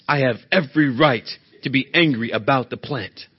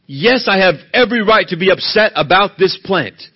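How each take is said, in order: First: Said in the usual way. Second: Loud, stubborn insistence on "every right"; defiant anger. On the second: Acted. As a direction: push back hard and loud. Jonah's angry reply voiced.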